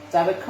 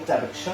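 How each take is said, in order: First: চাবেক্ষ said with "kkh", as "chabekkho"; everyday kkh sound. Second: চাবেক্ষ said with "ksh", as "chabeksho"; চাবেক্ষ as chabeksho, Sanskrit style; pure ksh sound. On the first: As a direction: use the Bengali kkh for ক্ষ in চাবেক্ষ. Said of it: "চাবেক্ষ বললেও ভুল হবে না". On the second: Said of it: "শুদ্ধ উচ্চারণ হবে চাবেক্ষ". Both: Shown as a demonstration.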